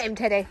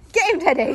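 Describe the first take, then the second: First: Said in the usual way. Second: Higher, louder cheer for the dog; playful urging, pitched up; excited egging on. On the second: Real, not acted. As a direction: rev the dog up.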